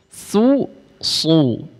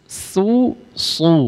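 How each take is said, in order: Both takes have the same delivery.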